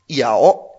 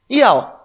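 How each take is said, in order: First: It is said with a dipping third tone. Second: It is said with a falling fourth tone. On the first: It means to bite. "Un tercer tono es morder" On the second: It means to want. "Eso sería un cuarto tono"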